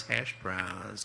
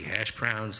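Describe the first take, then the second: First: Lightly quoted singer, drawn out and a little lower; touch of a musician's impression, trailing down. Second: Said in the usual way. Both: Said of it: "to quote a singer".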